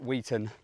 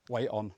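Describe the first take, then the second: First: The first part does not sound like 'wait'. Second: The first part sounds like 'wait'. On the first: This is how the name is said locally. The speaker calls it right. "it's pronounced differently up north" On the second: This is how southerners say the name. The speaker calls it wrong. "Down south we pronounce it like a bloody heavy Sunday dinner"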